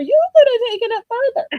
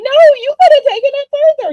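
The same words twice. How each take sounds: First: High, fast repeat of the urging; pitched high, quick encouraging echo; excited insistence. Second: High, fast, loud eager insistence; urging her on, much higher and faster; pitched way up, rushed and loud; excited insistence. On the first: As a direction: still way up, rushing the words. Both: Retold or imitated. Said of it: "And I'm like".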